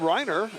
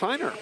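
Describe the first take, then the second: First: The name begins with an R sound. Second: The name begins with an H sound. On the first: The speaker calls it wrong. "We did call him Reiner" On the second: The speaker calls it right. "it's Heiner"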